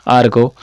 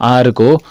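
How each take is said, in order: No difference in how they are said.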